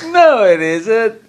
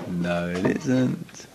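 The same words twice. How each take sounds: First: Much higher, slow, whiny tempter voice; squeaky pleading tempter; Yetzer Hara voice. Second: Lower, softer, slow flat refusal; quiet, slow, final no; firm denial. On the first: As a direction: play the lazy inner voice begging to stay in bed. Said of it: "that's your Yetzer Hara". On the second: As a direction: shut the excuse down calmly. Rebutting the Yetzer Hara's excuse. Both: Acted.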